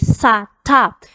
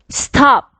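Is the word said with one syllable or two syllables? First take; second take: two syllables; one syllable. First: A vowel is added, giving two syllables. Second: It is said as a single syllable. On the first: The speaker calls it wrong. "Sa top is already two syllables" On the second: The speaker calls it right. "The correct pronunciation of this word is stop"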